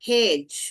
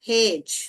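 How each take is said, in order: Both takes have the same delivery.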